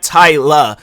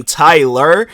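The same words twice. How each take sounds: First: Tyla said slowly with no R at the end; dropped r. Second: Said in the usual way. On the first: Shown as a demonstration. Recalling childhood speech, he says Tyla without the R. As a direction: drop the final R: Tyla. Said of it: "it would be coming out as". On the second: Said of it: "when I would say my name".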